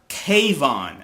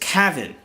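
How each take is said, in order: First: The name rhymes with Trayvon, with a long first vowel. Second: The name sounds close to Kevin, with short vowels. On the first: The speaker calls it wrong. "as T Y T is pronouncing, or I should say mispronouncing" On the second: The speaker calls it right. "It sounds more similar to Kevin"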